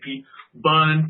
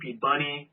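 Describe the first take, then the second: First: The surname is said as one short syllable, Bun. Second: The surname is said as two syllables, Bunny. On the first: "They say Pete Bun"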